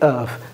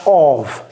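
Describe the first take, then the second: First: It ends with a v sound. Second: It ends with an f sound. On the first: The speaker calls it right. "les F, c'est comme si c'était un V" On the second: The speaker calls it wrong. "C'est pas of"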